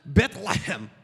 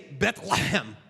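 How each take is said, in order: First: The middle sound rasps at the back of the throat. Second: The same.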